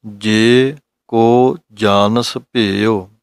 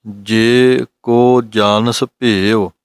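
First: ਜੇ ਕੋ ਜਾਣਸ ਭੇਉ very slowly, ਕੋ falling, words separate; slow phrasing demo; slow recitation. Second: ਜੇ ਕੋ ਜਾਣਸ ਭੇਉ drawn out slowly, ਜੇ and ਕੋ kept apart; unhurried line with ਜੇ and ਕੋ separate; slow phrasing demo; slow recitation. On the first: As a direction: recite the line slowly and steadily. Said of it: "ਜੇ ਕੋ ਨਹੀਂ ਕਰਨਾ". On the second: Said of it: "ਇਸ ਤਰ੍ਹਾਂ ਦੇ ਨਾਲ ਪੜ੍ਹਨਾ ਹੈ". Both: Shown as a demonstration.

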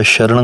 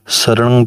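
First: ਸ਼ਰਣੰ with a sh sound, sharnang; wrong pronunciation. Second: ਸਰਣੰ with a plain s, sarnang; correct pronunciation. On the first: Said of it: "ਸੱਸੇ ਦੇ ਪੈਰ ਦੇ ਵਿੱਚ ਬਿੰਦੀ ਨਹੀਂ ਲਾਉਣੀ". (ਸ਼ਰਣੰ ਸ਼ ਨਾਲ ਗਲਤ ਉਚਾਰਨ) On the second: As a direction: start ਸਰਣੰ with a clean s sound. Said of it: "ਸ਼ਰਣੰ ਨਹੀਂ ਕਹਿਣਾ". (ਸਰਣੰ ਸੱਸੇ ਨਾਲ ਸਹੀ ਉਚਾਰਨ) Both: Shown as a demonstration.

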